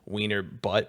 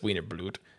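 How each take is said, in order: First: The second word is said without an L sound. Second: The second word is said with an L sound. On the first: The speaker calls it wrong. "fuck up the pronunciation and call it Wiener butt" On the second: The speaker calls it right. "there's no L, so it's Wiener Blut"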